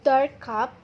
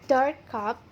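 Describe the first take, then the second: No difference in how they are said.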